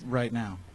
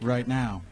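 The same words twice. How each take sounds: First: It is said more quietly. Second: It is said louder.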